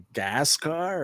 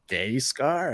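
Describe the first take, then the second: First: The first syllable sounds like 'gas'. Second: The first syllable sounds like 'gay'. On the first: "or what is that?" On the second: "how do you say that?"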